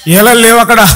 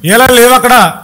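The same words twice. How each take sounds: The two takes are said the same way.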